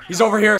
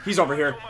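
First: Higher and louder, calling out; urgent, louder shout of the spot; louder callout. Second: Said in the usual way. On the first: Real, not acted. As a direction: raise the voice to alert the team.

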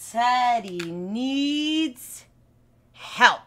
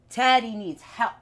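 First: Slow, stretched teacher delivery of Teddy needs help; drawn-out. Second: Said in the usual way. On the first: Shown as a demonstration.

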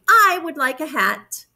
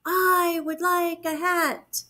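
First: Higher bear character voice; reply firmly, pitched up; storybook Bear. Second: High, slow, drawn-out echo; echoing moon. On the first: Bear answers the moon's question, high character voice. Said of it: "then he replied". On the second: Moon echoes bear's wish back, slow high echo. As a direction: echo it slowly from far away. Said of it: "said the moon". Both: A narrator's reading.

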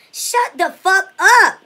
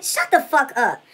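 First: Drawn-out louder command; stretched-out angry order; slow, louder shut up. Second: Said in the usual way. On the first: Acted. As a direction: drag each word out and push it louder. Telling rival to shut up.

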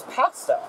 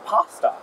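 First: Short "a" as in cat in pasta; pronounced with short "a". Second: Broad open "ah" in pasta; pronounced with "ah". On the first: Camper corrects the word, saying pasta with a short "a". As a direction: say pasta as "PASS-tuh". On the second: Camper quotes one way of saying pasta, with a long "ah". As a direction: say pasta as "PAH-stuh". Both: Retold or imitated. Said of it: "no, it's pasta".

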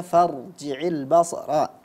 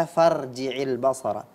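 First: FARJI'IL BASARA with a heavy, full-mouthed ra; thickened ra. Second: FARJI'IL BASARA with a thin, light ra; ra not thickened. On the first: Quran teacher modelling the proper reading, thick ra. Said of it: "Siogianya dibaca". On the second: Quran teacher imitating the reader's slip, thin ra. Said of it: "ini kedengarannya tidak ditafkhimkan". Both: Shown as a demonstration.

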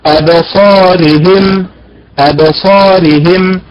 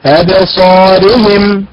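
First: أبصارهم slow, stress moved onto the هاء; the common error, stress on the هاء; wrong stress. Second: أبصارهم very slow, stress on the صاد and راء; teacher's slow correct أبصارهم. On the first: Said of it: "ينبر على حركة الهاء". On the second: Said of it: "الأداء المستقيم بالنبر على حركة الصاد". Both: Shown as a demonstration.

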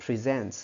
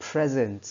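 First: "Present" stressed on the second syllable, pri-ZENT; "Present" with the weight on the final syllable; verb stress. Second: "Present" stressed on the first syllable, PREZ-ent; "Present" with a short e in a stressed first syllable; noun stress. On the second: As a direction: say "Present" as the noun, strong PRE falling away. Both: Shown as a demonstration. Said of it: "đọc thì hoàn toàn khác nhau".

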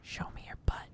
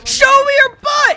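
First: Whisper. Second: Shout. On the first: Taunting enemy, first quietly. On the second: Taunting enemy, then yelled. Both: Acted.

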